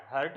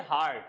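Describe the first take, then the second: First: हर्ट said with a short "u" sound, hurt; wrong reading. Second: हार्ट said with a long open "aa", haart; correct pronunciation. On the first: Teacher warning students not to read it as हर्ट: short vowel. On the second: Teacher to students, showing how हार्ट is read: long "aa". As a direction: stretch the vowel in हार्ट, like heart. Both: Shown as a demonstration. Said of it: "हर्ट नहीं पढ़ते हैं".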